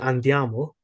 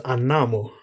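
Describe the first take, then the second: First: The word is said in standard Italian form. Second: The word is said in Roman dialect form. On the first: "normally in Italian" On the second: "but becomes"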